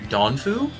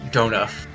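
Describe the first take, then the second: First: The name ends with an oo vowel. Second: The name ends with an f sound. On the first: The speaker calls it wrong. "Did I say that right?" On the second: The speaker calls it right. "There's no U at the end"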